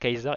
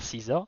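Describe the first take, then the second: First: The name begins with a hard "kai" sound. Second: The name begins with a soft "see" sound. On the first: The name is read letter by letter. The speaker calls it wrong. "si tu lis vraiment le C, le A, le E, le S, le A et le R, ça peut faire Kaiser" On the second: The name is said the usual way. The speaker calls it right. "et pas Caesar"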